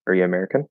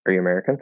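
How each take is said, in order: The two takes are said the same way.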